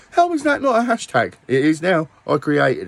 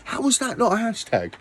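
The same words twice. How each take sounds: First: Louder, higher exclamation. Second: Said in the usual way. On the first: Real, not acted. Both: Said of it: "repeats the question louder".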